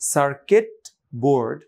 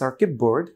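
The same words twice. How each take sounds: First: Circuit ends with a full t sound. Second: Circuit ends with a p sound before board. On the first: "সার্কিট board বলতে যতটা সময় লাগলো" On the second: "যদি বলি সার্কিট board সময় কম লাগছে"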